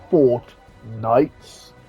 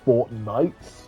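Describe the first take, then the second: First: A short gap separates the two words. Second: The two words run together without a gap. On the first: It is the name of the set. The speaker calls it right. "I always have to have a gap there" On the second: It sounds like the game's name. The speaker calls it wrong. "I always just feel like just saying"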